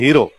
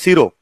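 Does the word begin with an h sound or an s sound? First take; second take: h sound; s sound. First: The word begins with an h sound. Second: The word begins with an s sound. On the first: "Jodhpur वाले बात कहेंगे हीरो" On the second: "Marwari भाषा में कहते हैं सीरो"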